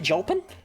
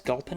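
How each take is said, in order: First: The name begins with a soft G sound. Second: The name begins with a hard G sound. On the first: "Are you saying I should pronounce it Jolpin?" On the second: "with a hard G"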